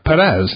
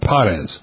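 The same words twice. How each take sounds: First: The stress is on the second syllable. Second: The stress is on the first syllable. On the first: The speaker calls it right. "it should be the second syllable" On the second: The speaker calls it wrong. "rather than"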